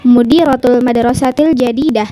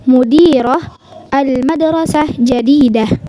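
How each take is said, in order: First: The words run together without any breaks. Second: There are short breaks between the words.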